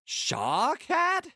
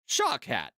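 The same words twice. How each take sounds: First: It is said in a questioning, inquisitive way. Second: It is said in a plain, normal way.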